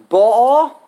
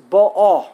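First: Ba'a with the second syllable rising, loud; contrasting syllable stress. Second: Ba'a loud, falling away at the end; contrasting syllable stress. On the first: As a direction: punch Ba'a and lift its final a. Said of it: "emphasis on the wrong syllable, it changes the meaning". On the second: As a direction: punch ba'a and let the final a fall. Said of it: "Either it means the present tense". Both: Shown as a demonstration.

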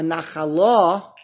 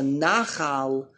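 First: Nachala drawn out, stress on final LA; stress on last syllable. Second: Nachal with the stress on NA; stress on first syllable. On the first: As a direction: say nachala accented on the lamed, na-kha-LA. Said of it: "the emphasis under the lamed". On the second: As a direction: say nachal accented on the nun, NA-khal. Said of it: "the emphasis under the nun". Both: Shown as a demonstration.

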